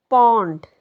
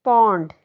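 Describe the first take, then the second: No difference in how they are said.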